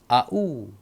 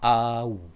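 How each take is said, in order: First: The two vowels are said as separate sounds. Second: The two vowels are blended into one glide. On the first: The speaker calls it wrong. "Supaya dia tak sebut A-U" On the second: The speaker calls it right. "Tapi A-U"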